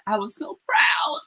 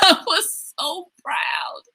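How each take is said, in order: First: Whispered, close to tears, slowly; proud mom whispering through tears; choked-up whisper. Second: Slow, much higher, breaking into a laughing cry; the same words again, now laughing and crying. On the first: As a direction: barely get it out, welling up. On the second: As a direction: let the pride burst out through laughter. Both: Real, not acted.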